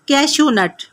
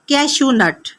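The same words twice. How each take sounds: Both takes have the same delivery.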